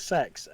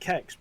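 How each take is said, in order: First: The name begins with an s sound. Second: The name begins with a k sound. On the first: This is how the company says it in its advert. "they pronounce it sex" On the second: This is the speaker's own way of saying it. "I pronounce it Kex"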